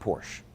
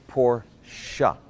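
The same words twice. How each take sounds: First: The name is said with one syllable. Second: The name is said with two syllables. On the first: The speaker calls it wrong. "It's not Porsche" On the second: The speaker calls it right. "it's actually pronounced Porsche. Say it after me"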